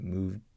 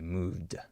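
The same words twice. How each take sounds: First: The final D stops without releasing any air. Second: The final D is released with a puff of air. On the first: The speaker calls it right. "We just say moved" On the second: The speaker calls it wrong. "We don't say moved. We don't release the air"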